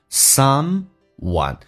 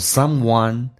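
First: The pitch rises, then falls on the last syllable. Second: The pitch stays level across the word. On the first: "前面一个音调用声调，那后面用降调把它平衡起来叫 someone" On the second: "如果他用平调读，对于实义词汇可以说 someone"

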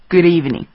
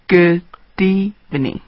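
First: The words run together quickly, linked. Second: The words are said slowly and separately. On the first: The speaker calls it right. "我们需要给它快速一点，那么就变成" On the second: The speaker calls it wrong. "如果我说的慢一点的话，就是"

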